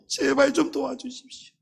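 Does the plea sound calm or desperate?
desperate. The plea is said with urgent, desperate emotion. The need is truly urgent. The speaker calls it right. "정말 다급할 때는"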